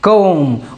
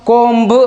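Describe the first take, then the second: First: The word ends on the m sound. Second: The word ends with an audible b sound. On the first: The speaker calls it right. "यह एम के बाद आया है तो चुप है" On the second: The speaker calls it wrong. "क्या कोम्ब नहीं बोलेंगे"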